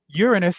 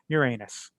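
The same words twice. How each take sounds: First: It is said with the standard planet pronunciation. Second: It is said so it sounds like 'your anus'. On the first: The speaker calls it right. "proper spelling and pronunciation" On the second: The speaker calls it wrong. "if you do it improperly"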